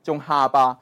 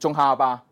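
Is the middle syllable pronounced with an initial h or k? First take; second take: h; h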